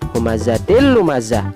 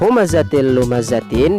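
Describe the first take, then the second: First: The last word ends on a soft h sound. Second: The last word ends with a full -tin ending.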